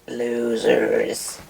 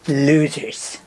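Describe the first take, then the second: First: It is said in a small alien impression. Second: It is said in a brash politician impression. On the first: "And now do E T, saying the same thing" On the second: "Just do Donald Trump one more time"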